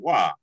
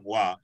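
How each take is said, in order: First: It is said with a questioning inflection. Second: It is said flat, like a plain statement. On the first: The speaker calls it right. "you're like "wa," ... it's a question" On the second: The speaker calls it wrong. "instead of just saying"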